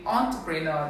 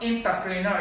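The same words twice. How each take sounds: First: "entrepreneur" as ON-tuh-pree-NUR; corrected pronunciation. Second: "entrepreneur" as IN-tuh-pree-NUR; wrong pronunciation shown. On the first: Diction teacher correcting the class on entrepreneur, careful pronunciation. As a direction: make the first E of "entrepreneur" sound like O. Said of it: "The E here sounds like O". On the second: Diction teacher showing what not to say, mistaken pronunciation. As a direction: open "entrepreneur" with a short in sound. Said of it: "not entrepreneur". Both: Shown as a demonstration.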